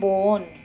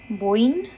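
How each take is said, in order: First: The word ends with an 'on' sound. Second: The word ends with an 'in' sound. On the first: "or you have" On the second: "two ways of being pronounced. The first is"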